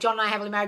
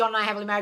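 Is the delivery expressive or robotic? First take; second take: robotic; robotic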